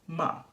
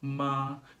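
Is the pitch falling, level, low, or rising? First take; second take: falling; level. First: The pitch falls from high to low. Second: The pitch stays high and level throughout. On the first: "the fourth tone goes from high to low" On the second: "Notice that my pitch doesn't change at all"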